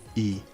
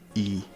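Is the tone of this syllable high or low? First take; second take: low; low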